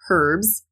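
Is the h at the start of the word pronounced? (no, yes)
yes. The word starts with an audible h sound. This is the British way of saying it. "We don't pronounce that H at the front like the Brits do. They would say"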